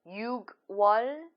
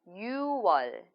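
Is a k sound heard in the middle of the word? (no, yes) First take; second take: yes; no. First: It is said with a k sound. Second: It is said with no k sound. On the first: The speaker calls it wrong. "instead of 육월" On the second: The speaker calls it right. "I read 유월"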